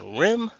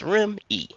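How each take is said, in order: First: It is one syllable with no final vowel. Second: It ends with an added final ee vowel. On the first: The speaker calls it wrong. "I don't like rim" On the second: The speaker calls it right. "I'm choosing the E"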